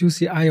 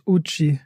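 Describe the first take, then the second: First: The name is spelled out as separate letters. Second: The name is read as one word, Uchi. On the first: This is the usual way to say the name. The speaker calls it right. "Ginas Oma wusste lange nicht, das UCI" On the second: Someone who reads it as written says it this way. The speaker calls it wrong. "Sie geht immer ins Uchi"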